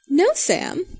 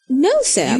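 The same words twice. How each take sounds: First: It is said in a teasing tone. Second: It is said in a plain tone.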